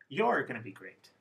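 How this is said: The stress is on you're.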